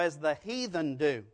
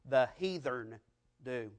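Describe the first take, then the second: First: Heathen is said in the standard way, without R. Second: Heathen is said with a Southern, R-like pronunciation.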